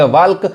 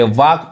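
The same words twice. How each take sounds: First: वाल्क with the L sounded; wrong pronunciation. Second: वाक with silent L; correct pronunciation. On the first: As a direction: voice an L before the K in वाल्क. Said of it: "तो गलत पढ़ाएगा". (वाल्क, एल बोलकर) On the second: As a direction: go from long vowel straight to K in वाक. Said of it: "यहाँ पे वाक पढ़ाएगा". (वाक, एल को खामोश रखकर) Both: Shown as a demonstration.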